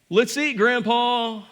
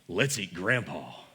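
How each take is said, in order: First: It sounds like a cheerful dinner invitation. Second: It sounds creepy, as if Grandpa is the meal.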